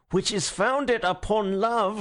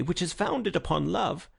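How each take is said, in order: First: Slow, higher, through gritted teeth; Gregory repeating himself through gritted teeth. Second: Said in the usual way. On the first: Acted. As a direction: repeat it slowly, teeth clenched. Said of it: "grinding his teeth". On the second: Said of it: "with a feverish gaiety".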